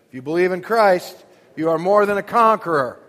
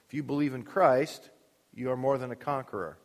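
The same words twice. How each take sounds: First: Raised, much louder preacher's declaration; loud exhortation. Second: Said in the usual way. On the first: Shown as a demonstration. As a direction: proclaim it loudly to the congregation. Repeats line, urging congregation to say.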